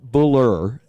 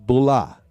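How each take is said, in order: First: The word ends with a pronounced R sound. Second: The word ends in a vowel, R dropped. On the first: The speaker calls it wrong. "So it's not Buller" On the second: The speaker calls it right. "it's Bulla"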